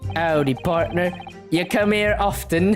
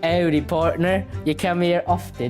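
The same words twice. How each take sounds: First: It is said in an American cowboy accent. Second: It is said in a British accent.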